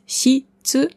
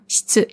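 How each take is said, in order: First: The i after sh is clearly voiced. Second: The i after sh is nearly silent. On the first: The speaker calls it wrong. "also nicht Shitsu" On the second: The speaker calls it right. "Das I hört man nicht oder fast nicht"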